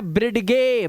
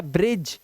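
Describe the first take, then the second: First: ब्रिडगे as brid-ge, hard g and voiced e; mock misreading ब्रिडगे in two syllables; mistaken d and e sounded. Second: ब्रिज as one falling syllable, lower; silent d and e. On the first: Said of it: "ब्रिडगे नहीं है भाई". (ब्रिडगे, 'ड' और 'ए' गलती से बोलते हुए) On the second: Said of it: "ये ब्रिज है". (ब्रिज, 'डी' और 'ई' चुप) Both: Shown as a demonstration.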